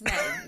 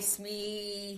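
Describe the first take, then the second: First: The name rhymes with 'may'. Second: The name does not rhyme with 'may'. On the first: The speaker calls it right. "It's May with an S in front of it" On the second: The speaker calls it wrong. "People butcher this"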